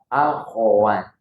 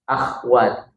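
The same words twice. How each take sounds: First: The kh sound is followed by an a vowel. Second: The kh sound has no vowel after it. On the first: The speaker calls it right. "Padahal yang benarnya adalah" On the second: The speaker calls it wrong. "Koknya itu uh, ini sak, apa sakin, sukun"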